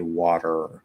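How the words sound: The word ends with a clear r sound. "we actually pronounce all those R's, right? So we say water"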